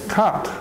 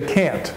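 First: The word is said with an Irish accent. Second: The word is said with an American accent. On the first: "And in Ireland, they say can't" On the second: "in Canada and America, we say can't"

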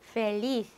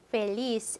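First: The final consonant sounds like English th. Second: The final consonant sounds like English s. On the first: This is how speakers in Spain say it. "스페인 스타일로 하면 페리스" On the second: This is how Latin American speakers say it. "중남미 사람들이 발음하면"

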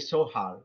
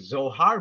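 First: The word begins with an S sound. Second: The word begins with a Z sound. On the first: This is the German pronunciation. "They say Zohar with the letter S" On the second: This is the English pronunciation. "in English we say Zohar"

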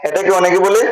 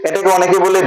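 The two takes are said the same way.

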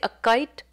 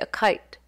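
First: The k is said without a puff of air. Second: The k is said with a puff of air.

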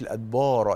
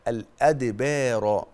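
First: The long vowel sounds heavy and dark. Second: The long vowel sounds light and thin. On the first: The speaker calls it wrong. "ما تقوليش الأدبار" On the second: The speaker calls it right. "الألف مرققة"

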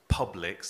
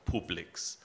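First: The name is said with English pronunciation. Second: The name is said with German pronunciation. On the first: The speaker calls it right. "it was Publix" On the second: The speaker calls it wrong. "as it would be pronounced in German"

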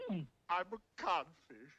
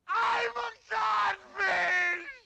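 First: It is said quietly. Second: It is said loudly.

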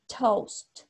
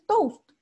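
First: The t has an English-like sound. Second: The t has a Spanish-like sound. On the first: The speaker calls it right. "esa pronunciación, ese sonido de English. ¿Ya? La t" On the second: The speaker calls it wrong. "porque no es lo mismo decir"

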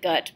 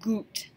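First: The vowel is a short 'uh' sound. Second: The vowel is a long 'oo' sound. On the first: The speaker calls it wrong. "I know it looks like gut, but that's not how we pronounce our U" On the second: The speaker calls it right. "It's gut"

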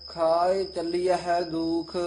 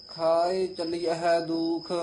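Both takes have the same delivery.

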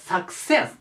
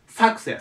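First: The stress falls on the second syllable. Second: The stress falls on the first syllable. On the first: The speaker calls it right. "じゃなくて、success というね、ここに来る、アクセントがね。" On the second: The speaker calls it wrong. "ここにね、アクセントが来るって間違いやすいんです。"

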